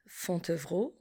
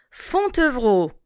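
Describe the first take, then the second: First: Fontevraud repeated very softly and lower. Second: Fontevraud said clearly, falling; teacher models the O in Fontevraud; model word. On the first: Teacher echoes Fontevraud quietly for the class. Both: Shown as a demonstration. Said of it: "passons au son O".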